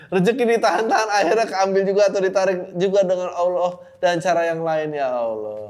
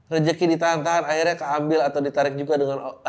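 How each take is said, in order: First: Rereads the quote higher and louder, laughing through it; can't get through the line without laughing; reading while laughing. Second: Said in the usual way. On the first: Real, not acted. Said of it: "ini lucu banget". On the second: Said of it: "Intinya dia bilang".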